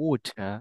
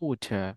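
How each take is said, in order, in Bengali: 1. এটি ব্রিটিশ উচ্চারণে বলা হয়। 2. এটি ব্রিটিশ উচ্চারণে বলা হয়।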